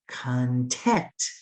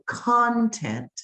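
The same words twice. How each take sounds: First: The stress is on the second syllable. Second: The stress is on the first syllable. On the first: Being happy and satisfied. "open your mouth wider for the second syllable" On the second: Things or belongings. "if I open my mouth wider for the first syllable"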